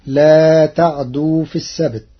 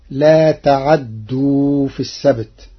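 First: Said in the usual way. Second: تعدوا with open ain and doubled dal, ta-'addu; Warsh reading. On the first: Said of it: "قرأ ورش كلمة "لا تعدوا". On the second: Shown as a demonstration. Teacher demonstrates the Warsh reading of تعدوا. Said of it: "بتحريك العين مفتوحة وتشديد الدال".

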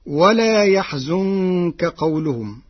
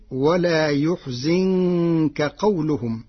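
First: يحزنك as yaħzunka, a then u; reading yaħzunka. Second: يحزنك as yuħzinka, damma on ya, kasra on zay; Warsh reading yuħzinka. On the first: Teacher quoting the usual reading of يحزنك. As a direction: say يحزنك with fatha on ya and damma on zay. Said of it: "قرأ ورش كلمتي ولا يحزنك". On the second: Teacher showing the Warsh reading, يحزنك with u then i. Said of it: "بضم الياء وكسر الزاي". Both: Shown as a demonstration.

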